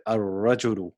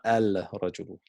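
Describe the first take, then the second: First: Ar-rajulu without a rolled r; ar-rajulu, doubled r, not trilled; unrolled r. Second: Al-rajulu with the l sounded; al-rajulu, l kept before r; wrong form shown. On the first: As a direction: say ar-rajulu without rolling the tongue. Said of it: "Try not to roll the tongue". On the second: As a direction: say al-rajulu as the mistake. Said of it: "not al-rajulu". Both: Shown as a demonstration.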